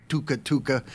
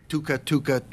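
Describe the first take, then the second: The two takes are said the same way.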